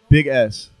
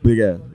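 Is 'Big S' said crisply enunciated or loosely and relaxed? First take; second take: crisp; loose. First: Each sound is enunciated crisply and carefully. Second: The sounds are relaxed and run loosely together. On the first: The speaker calls it wrong. "I enunciated too much" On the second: The speaker calls it right. "Yeah, there you go"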